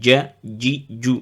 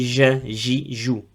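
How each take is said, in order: First: The j starts with a closure, like dj. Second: The j is a soft sound, like French j. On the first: The speaker calls it right. "Le milieu de la langue, il ferme bien le palais supérieur" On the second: The speaker calls it wrong. "il faut faire attention euh, de ne pas prononcer"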